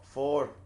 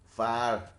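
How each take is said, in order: First: The vowel is rounded, like in 'for'. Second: The vowel is open, like in 'far'. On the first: The speaker calls it wrong. "I was saying four, like before" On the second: The speaker calls it right. "A Scottish, like in the fa- in the word far, it's like far"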